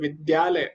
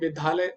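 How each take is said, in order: First: The cluster is pronounced with a plain 'd'. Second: The cluster is pronounced with an aspirated 'dh'. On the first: The speaker calls it right. "तो द्या हो जाता है" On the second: The speaker calls it wrong. "तो कई लोग इसको धा पढ़ते हैं"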